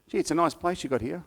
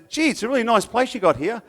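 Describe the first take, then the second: First: It is said in a flat, unenthusiastic tone. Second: It is said in a lively, enthusiastic tone.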